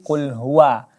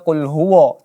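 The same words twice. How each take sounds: First: The final wa has an open mouth. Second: The final wa has a rounded mouth. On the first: The speaker calls it right. "pengucapan wa dibuka saja mulutnya" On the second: The speaker calls it wrong. "tidak dibaca"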